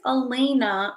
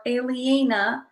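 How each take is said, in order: First: Elena said slowly as uh-LAY-nuh; name pronunciation check. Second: Aliena sounded out slowly, syllable by syllable; name pronunciation check. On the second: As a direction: stretch Aliena into careful separate vowels. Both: Shown as a demonstration. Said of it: "how it's pronounced properly".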